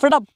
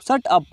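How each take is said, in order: First: The two words are run together quickly. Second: The two words are said separately.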